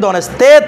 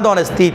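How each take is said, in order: First: The last vowel sounds like 'e'. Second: The last vowel sounds like 'i'. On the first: The speaker calls it wrong. "তেত নয়" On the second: The speaker calls it right. "দনেস্থিত, তেত নয়"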